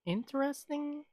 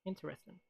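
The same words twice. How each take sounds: First: Doubtful interesting. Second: Flat interesting. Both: Real, not acted.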